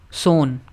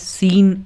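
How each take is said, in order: First: The word is said with an oh vowel. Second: The word is said with an ee vowel. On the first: The speaker calls it right. "सोन पढ़ेंगे" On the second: The speaker calls it wrong. "पहले मैंने गलत बता दिया था"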